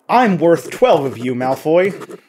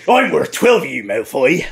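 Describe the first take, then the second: First: The line is said flatly, with little inflection. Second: The line is said expressively, with lively inflection. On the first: "It is hard to say these with no inflection" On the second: "if I just came in here and I was like"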